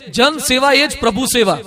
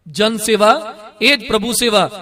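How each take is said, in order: First: Said in the usual way. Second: "જન સેવા", pause, then "એ જ પ્રભુ સેવા"; slow, deliberate slogan split at "એ જ"; slow repeat. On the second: Shown as a demonstration. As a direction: repeat it slowly, pausing after "સેવા" in "જન સેવા". Slogan repeated slowly for emphasis.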